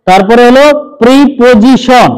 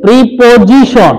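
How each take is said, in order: First: প্রিপোজিশন said slowly, not প্রিপারেশন; slow model pronunciation. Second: প্রিপোজিশন said slowly, clearly pi-po-ji-shon; careful correction of প্রিপোজিশন; corrected pronunciation. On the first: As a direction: stress the জি in প্রিপোজিশন. (প্রিপোজিশন ধীরে স্পষ্ট করে) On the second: (প্রিপোজিশন সংশোধিত স্পষ্ট উচ্চারণ) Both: Shown as a demonstration. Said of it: "প্রিপারেশন বলো না আবার".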